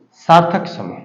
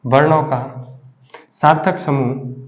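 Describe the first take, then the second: First: Said in the usual way. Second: सार्थक समूह said slowly, word by word; teacher pacing सार्थक समूह so the class can note it down; slow dictation. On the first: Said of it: "सार्थक समूह, repeated slowly". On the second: Shown as a demonstration. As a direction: spell out सार्थक समूह slowly for students to write. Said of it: "वर्णों का, repeated for dictation".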